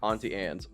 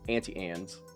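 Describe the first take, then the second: First: It is said in a general accent. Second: It is said in an Oklahoma accent.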